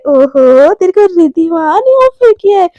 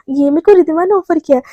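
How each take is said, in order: First: Loud, drawn-out mock-impressed echo; teasing. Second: Said in the usual way. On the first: A narrator's reading. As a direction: tease her, stretching it in a rising swoop. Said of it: "एकदम चिढ़ाते हुए". (चिढ़ाते हुए खींचकर)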